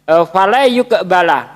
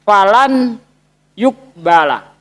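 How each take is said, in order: First: The n merges into y with a nasal sound. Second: The n sound is pronounced clearly before y. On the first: The speaker calls it right. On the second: The speaker calls it wrong. "Di situ dia baca falan yukbala"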